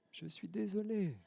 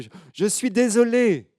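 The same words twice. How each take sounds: First: High, soft, slow faraway repeat; the apology coming back as an echo; faint distant echo. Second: Put-on high, loud, slow child's apology; sorry little girl. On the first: Acted. Echo answers the girl. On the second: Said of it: "elle culpabilise un petit peu".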